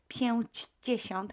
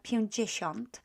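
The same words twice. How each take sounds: First: Every syllable is pronounced fully and carefully. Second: It is said quickly with sounds reduced. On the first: "it would be hard to pronounce this pięćdziesiąt" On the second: "when we pronounce it quickly or quicker"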